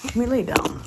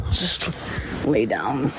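First: Said in the usual way. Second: "lay down" drawn out slowly. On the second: Real, not acted. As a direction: stretch out "Just lay down". Repeated plea slowed.

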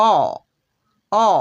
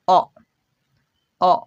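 First: অ said long and strong; full vowel অ. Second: অ said short and weak; barely touch the অ, short and light; weak schwa অ. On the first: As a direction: give অ its full length and force. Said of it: "এটা আমরা উচ্চারণ করি". (অ পুরো জোর দিয়ে লম্বা করে) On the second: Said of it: "কিন্তু এটা যখন আমরা সোয়া উচ্চারণ করব". (অ ছোট আর দুর্বলভাবে) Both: Shown as a demonstration.

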